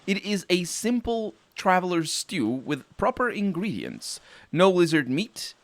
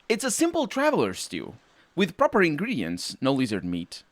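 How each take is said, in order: First: No lizard meat is read as a separate sentence. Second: No lizard meat continues the sentence after a comma.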